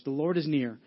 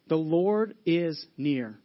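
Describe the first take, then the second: First: Said in the usual way. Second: The Lord is near, drawn out slowly with weight on Lord; slow, weighty reading of The Lord is near; slow emphasis. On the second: Shown as a demonstration. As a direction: linger on Lord, let each word land. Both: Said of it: "That's a key phrase in this verse".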